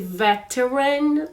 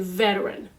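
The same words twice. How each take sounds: First: The middle T is pronounced clearly. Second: The middle T is soft, like a D. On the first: The speaker calls it wrong. "You don't need to say veteran" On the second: The speaker calls it right. "you don't say much the T sound"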